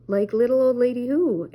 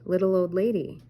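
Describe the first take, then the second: First: Shaggy's line said loud and higher, a yodel-like lift; loud Shaggy question. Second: Said in the usual way. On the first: A narrator's reading. Shaggy answers Daphne's knock-knock joke, loud and high. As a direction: punch it out, louder with a rising lift. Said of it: "asked Shaggy". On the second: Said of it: "Daphne said".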